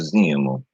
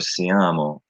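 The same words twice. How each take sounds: First: The stress is on the third-to-last syllable. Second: The stress is on the second-to-last syllable. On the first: This is the Sicilian form. "It's the third to last" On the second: This is the Italian form. "as opposed to the, the second to last"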